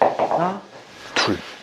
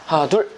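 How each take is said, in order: First: The count is slow and drawn out. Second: The count is rushed and quick. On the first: The whole body pulls steadily together. The speaker calls it right. "줄다리기 하는 리듬으로 네, 이런 느낌으로요" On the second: The body lunges forward too early. The speaker calls it wrong. "되게 급하게 치시는 분들은 이런 느낌인 거죠"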